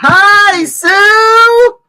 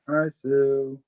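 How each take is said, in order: First: It is said loudly, with lots of energy. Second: It is said softly, with little energy.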